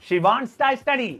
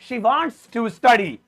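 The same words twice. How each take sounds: First: Wants to is shortened and run together. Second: Wants to is said as two full words.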